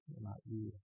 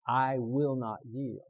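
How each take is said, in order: First: Very quiet, subdued repetition; soft echo. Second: Slow, firm declaration; leading a recitation. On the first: Preacher repeating a vow along with the congregation, very soft echo. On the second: Preacher giving the congregation a vow to repeat, slow firm lead. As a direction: lay it down word by word. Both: Shown as a demonstration. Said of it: "And then repeat with me".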